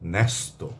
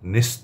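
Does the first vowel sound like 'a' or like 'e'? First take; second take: a; e. First: The first vowel sounds like 'a'. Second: The first vowel sounds like 'e'. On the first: The speaker calls it right. "আমরা বলছি" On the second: The speaker calls it wrong. "বলছি না"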